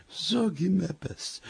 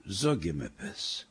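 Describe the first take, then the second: First: Higher, soft, drawn-out plea; slow hushed pleading, pitched up; hushed insistent nudging. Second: Low, soft, slow urging; slow secret plea, kept down low; hushed nudging. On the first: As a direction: urge him softly but more pressingly. Wife urges again, thief nearby. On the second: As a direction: nudge him under your breath. Wife nudging husband in bed. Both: Acted.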